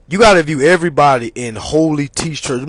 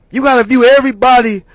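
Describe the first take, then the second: First: Said in the usual way. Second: Loud, fast emphasis. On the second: Real, not acted.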